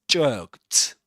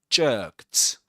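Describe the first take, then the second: No difference in how they are said.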